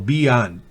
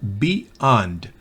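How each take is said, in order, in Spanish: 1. Las dos sílabas se unen sin pausa. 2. Hay una pausa entre las dos sílabas. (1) "cuando une las dos sílabas, parece oírse una Y" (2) "Si hiciéramos una pausa"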